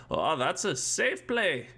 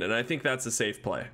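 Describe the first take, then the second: First: Put-on slow, stilted old-timey boy; hammed-up wholesome kid from old movies; fifties boy voice. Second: Said in the usual way. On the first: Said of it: "That's not even a nineteen fifties voice". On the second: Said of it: "Safe play? Who says that?".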